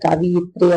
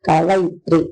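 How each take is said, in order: First: The second syllable is said with an i vowel. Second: The second syllable is said with an a vowel. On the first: The speaker calls it wrong. "കവിയിത്രി അല്ല" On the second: The speaker calls it right. "കവയിത്രിയാണ്"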